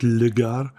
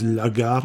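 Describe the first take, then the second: First: Le gare said slowly and deliberately, with the wrong article le; le gare, slow and wrong on purpose; wrong French article. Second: La gare said with a French accent, feminine article la; la gare, the correct French way; French pronunciation. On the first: Host to listeners, correcting himself: slow, deliberately wrong le gare. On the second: Host to listeners, showing off his French: la gare in a French accent. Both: Shown as a demonstration. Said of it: "That's my French accent".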